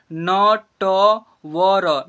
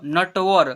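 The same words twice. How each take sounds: First: "नटवर" loud and slow as न, ट, व, र; letter by letter. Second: Said in the usual way. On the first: Shown as a demonstration. Teacher sounding out "नटवर" for learners, letter by letter. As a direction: stretch "नटवर" into four long syllables. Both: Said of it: "ऐसे हुआ".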